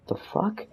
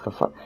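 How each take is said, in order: First: Muttered, much softer, pitched up; a shocked aside under the breath. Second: Muttered almost to nothing; a near-silent disbelieving aside; under my breath. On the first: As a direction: breathe it out so nobody hears. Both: Retold or imitated. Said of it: "Like, under my breath".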